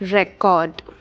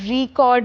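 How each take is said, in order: First: The stress is on the first syllable. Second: The stress is on the second syllable. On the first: It names saved data or documents. "അതിന്റെ pronunciation record" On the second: It names the action of capturing audio. "ഈ വാക്കിനെ നമ്മൾ റീകോർഡ് എന്ന് പറയും"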